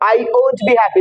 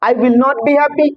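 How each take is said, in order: First: The words are contracted into one syllable, 'won't'. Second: The words 'will not' are said in full. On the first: "উইল নটটা কি হয়ে যায় ওন্ট" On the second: "উইল নট"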